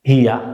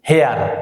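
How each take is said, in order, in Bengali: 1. স্বরধ্বনিটি 'here' এর মতো শোনাচ্ছে, শেষে r নেই। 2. স্বরধ্বনিটি 'hair' এর মতো শোনাচ্ছে, শেষে r আছে। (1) "এটা শুদ্ধ উচ্চারণ হবে হিয়া" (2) "এইটাকে আমরা বলি হেয়ার"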